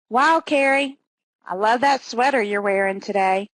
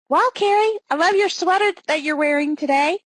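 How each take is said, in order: First: The tone is insincere rather than warmly complimentary. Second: The tone is happy and warmly complimentary. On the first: The compliment is not meant sincerely. "Same words, different connotations" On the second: The compliment is meant sincerely. "Happy? Complimentary?"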